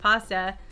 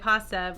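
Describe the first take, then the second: First: It is said the Italian way, with an open 'ah'. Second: It is said the way Americans say it. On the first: "So for Italians, it's pasta" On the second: "so Americans we say pasta"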